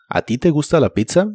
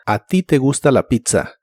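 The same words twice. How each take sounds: First: "¿A ti te gusta la pizza?" rising on "pizza" like a question; question tune. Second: "¿A ti te gusta la pizza?" with a falling, flat statement tune. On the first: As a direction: make it a yes-no question, rising at the end. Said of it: "cambias el tono para que suene como pregunta". (entonación de pregunta, que sube al final) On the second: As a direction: say it as a plain statement, falling at the end. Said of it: "es una afirmación o idea positiva". (entonación de afirmación, que baja al final) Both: Shown as a demonstration.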